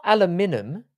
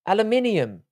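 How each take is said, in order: First: Aluminum in four syllables, a-LOO-mi-num; aluminum without the extra syllable; American aluminum. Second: Aluminium in five syllables, al-you-MIN-ee-um; aluminium the British way. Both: Shown as a demonstration. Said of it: "Where did I add a syllable".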